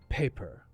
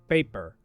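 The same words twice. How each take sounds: First: The first P has a strong puff of air. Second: The first P has no puff of air. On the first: The speaker calls it right. "we will say P with more breath" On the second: The speaker calls it wrong. "if I use the same sound that I use when I speak Spanish"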